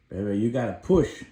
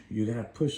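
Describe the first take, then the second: First: Firm urging push; coaxing his baby girl to push, louder. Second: Said in the usual way. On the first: Retold or imitated.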